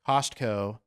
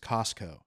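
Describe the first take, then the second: First: The T sound in the middle is pronounced. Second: The T sound in the middle is silent. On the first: "I pronounce it though" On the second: "She says it's Costco"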